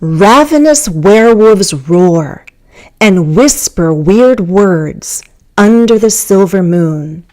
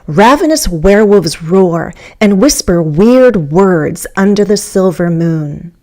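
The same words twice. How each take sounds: First: It is said slowly, in three separate groups. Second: It is said very fast but still clearly. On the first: "In three thought groups" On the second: "Here's about as fast as I could go without losing the clarity"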